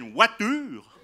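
It is said in a Swiss French accent.

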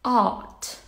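The r sound is silent after the vowel. "In British, it's art"

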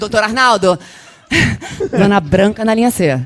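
The line has a marked, altered intonation. She wants to be noticed in the role. "eu vou trocar a entonação. Então tinha dia que eu chegava assim"

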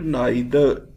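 The word is said the British English way. "In England, we produce it neither"

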